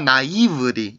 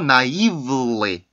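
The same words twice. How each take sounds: First: The L sound stays only in its own syllable. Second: The L sound also colors the syllable before it. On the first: The speaker calls it wrong. "이렇게 발음이 되지 않고" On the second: The speaker calls it right. "이런 식으로 발음을 해서 L 발음 소리를 여기에도 넣어주는 게 어, 정확한 소리"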